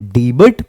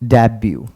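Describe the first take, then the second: First: It is read with a final t sound. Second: It ends in a yoo sound, t silent. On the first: The speaker calls it wrong. "अगर आप इसको डीबट पढ़ रहे हैं तो गलत है" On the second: The speaker calls it right. "लिखते हैं D E B U टी, it's डेब्यू"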